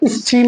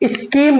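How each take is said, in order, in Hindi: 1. इस व्यंजन का उच्चारण 'ch' जैसा होता है। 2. इस व्यंजन का उच्चारण 'k' जैसा होता है। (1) "स्कीम नहीं बोलेंगे" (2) "स्कीम बोलेंगे"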